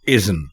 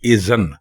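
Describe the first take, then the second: First: No vowel is heard between z and n. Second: A short 'a' is heard between z and n. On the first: The speaker calls it right. "दुरुस्त लफ्ज़ है इज़्न" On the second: The speaker calls it wrong. "लोग इसको बोलते हैं इज़न"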